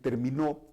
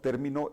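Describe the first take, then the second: First: The stress is on the last syllable. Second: The stress is on the first syllable. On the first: He or she finished, in the past. "es una palabra aguda" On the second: It names a concept or term. "es una palabra esdrújula, lleva el acento en la E"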